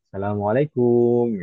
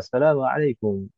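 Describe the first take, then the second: First: The vowel after the k is drawn out. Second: The vowel after the k is short. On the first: The speaker calls it wrong. "kadang kebiasaan dipanjangkan" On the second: The speaker calls it right. "Tidak ada mat pada huruf kaf"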